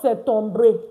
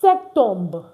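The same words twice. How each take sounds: First: A vowel sound is heard after the R. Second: It ends on the R with no vowel. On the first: The speaker calls it wrong. "Not septembre. You see this R E? Don't pronounce it" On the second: The speaker calls it right. "So we say what?"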